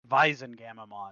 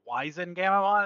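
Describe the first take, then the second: First: The name begins with a V sound. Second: The name begins with a W sound. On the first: The speaker calls it right. "no, it's German too. That'd be" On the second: The speaker calls it wrong. "when I first started saying it, I was like"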